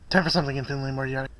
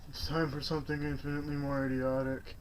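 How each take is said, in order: First: It is said in a lively, enthusiastic way. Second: It is said in a flat, unenthusiastic way.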